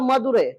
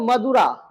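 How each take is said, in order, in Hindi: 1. नाम का अंत 'ai' स्वर ध्वनि से होता है। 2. नाम का अंत सामान्य 'a' ध्वनि से होता है। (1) "तमिल में इसको कहा जाता है मदुरै" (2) "अंग्रेजी में इसका नाम है मदुरा"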